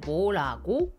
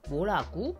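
First: The last syllable is pronounced go. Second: The last syllable is pronounced gu. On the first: "原本的字应该是뭐라고" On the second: "他们习惯把고念成구，所以就会变成뭐라고"

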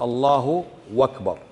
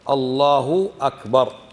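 First: A 'w' sound is inserted before 'Akbar'. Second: 'Akbar' follows directly with no 'w' sound. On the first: Akbar is joined to God as a separate item. The speaker calls it wrong. "يضع بين المبتدأ والخبر حرف الواو" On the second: God is greater than everything. The speaker calls it right. "جملة اسمية مبتدأ وخبر"

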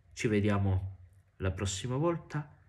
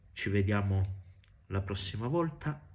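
The two takes are said the same way.

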